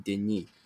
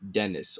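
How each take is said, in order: First: The name is pronounced the French way. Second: The name is pronounced the English way.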